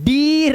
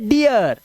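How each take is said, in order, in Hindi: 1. स्वर सादा लंबा ee है। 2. स्वर ee से ya में फिसलता है। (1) "इसे डीर नहीं पढ़ते" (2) "इसे पढ़ते डियर"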